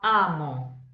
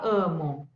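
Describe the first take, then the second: First: The first vowel is open, not through the nose. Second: The first vowel is nasal, through the nose. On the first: The speaker calls it right. "lembra que é som aberto?" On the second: The speaker calls it wrong. "Eu não vou falar amo pelo nariz, não"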